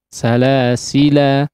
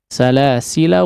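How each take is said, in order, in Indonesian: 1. Vokal akhirnya dipanjangkan sebelum huruf henti. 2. Vokal akhirnya pendek, langsung menyambung ke kata berikutnya. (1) "alifnya itu dianggap" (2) "tidak dibaca ketika diwasalkan"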